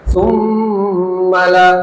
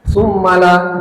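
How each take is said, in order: First: The nasal sound is held long. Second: The nasal sound is cut short. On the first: The speaker calls it right. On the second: The speaker calls it wrong. "jangan summala gitu"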